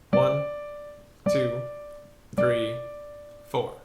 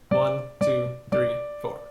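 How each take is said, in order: First: It is counted at a slow pace. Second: It is counted at a fast pace.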